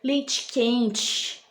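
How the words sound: The words are pronounced with deliberately exaggerated articulation. "eu dizia ... Comecei a exagerar"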